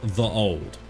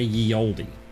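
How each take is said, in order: First: The first word begins with a 'th' sound. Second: The first word begins with a 'y' sound. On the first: This is how it was originally read. The speaker calls it right. "it would be absolutely pronounced the old" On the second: This is how people commonly say it today. The speaker calls it wrong. "And yet we say ye oldie"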